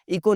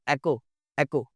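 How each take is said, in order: First: इको opening on ee; high-pitched इको with i vowel; mispronounced vowel. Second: एको opening on open e; slow, deliberate एको with eh; corrected vowel. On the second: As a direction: say एको as eh-ko, slowly. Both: Shown as a demonstration. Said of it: "इको नहीं जी".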